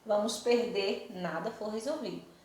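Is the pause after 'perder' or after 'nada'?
after perder. There is a pause after 'perder'.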